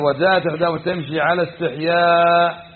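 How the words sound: The phrase runs on, pausing after 'ala istihya'. The shyness is in her walking. "صار الاستحياء أين؟ في مشيتها"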